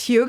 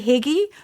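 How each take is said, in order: First: The word does not end with an 'ee' sound. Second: The word ends with an 'ee' sound. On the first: The speaker calls it right. "but it's Hygge" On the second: The speaker calls it wrong. "you want to say Higgy"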